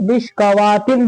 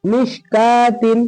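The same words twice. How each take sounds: First: मिशकावातिन with an added "waa" after "kaa"; common misreading. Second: मिशकातिन slowly, long "kaa", no "w"; correct silent-waw reading. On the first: Teacher showing how people may misread it, waw sounded. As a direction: pronounce the waw fully in मिशकावातिन. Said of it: "अब इसको लोग क्या पढ़ते हैं?". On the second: Teacher presenting the next word, slow and waw silent. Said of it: "फिर क्या है?". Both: Shown as a demonstration.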